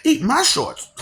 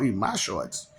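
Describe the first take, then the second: First: High, loud cartoon brat; bratty boy catchphrase; Bart Simpson catchphrase. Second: Said in the usual way. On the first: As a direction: shout it like a cheeky cartoon kid. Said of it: "Bart Simpson". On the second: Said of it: "Eat, no".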